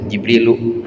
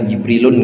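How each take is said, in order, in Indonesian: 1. Kata ini diakhiri vokal, tanpa n. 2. Kata ini diakhiri dengan bunyi n tambahan. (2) "Enggak boleh kita bilang Jibrilun"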